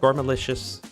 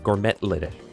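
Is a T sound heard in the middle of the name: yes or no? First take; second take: no; yes. First: The name is said without a T sound. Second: The name is said with a T sound.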